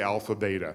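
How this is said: Beta is said the American way.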